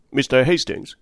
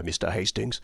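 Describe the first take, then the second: First: Said in the usual way. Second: Softer, hushed voice on Mister Hastings; sunken to a whisper. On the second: A narrator's reading. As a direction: drop to a confiding hush. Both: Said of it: "sank her voice to a whisper".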